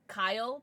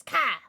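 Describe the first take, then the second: First: Said in the usual way. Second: KA cut short as one punched syllable; Cartman's clipped Kyle. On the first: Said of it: "Cartman says Kyle, but he says Ka". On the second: Retold or imitated. Streamer showing viewers how Cartman says Kyle, loud Ka. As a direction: say Ka loudly, dropping the L of Kyle. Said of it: "but he says Ka".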